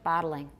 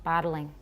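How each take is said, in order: First: It is said with three syllables. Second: The same.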